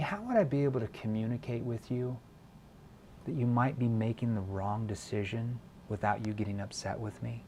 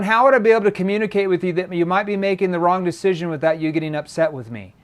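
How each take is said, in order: First: The sentence is spoken at a slow pace. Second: The sentence is spoken at a fast pace. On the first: The speaker calls it right. "But if I slow down" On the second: The speaker calls it wrong. "I don't want to say"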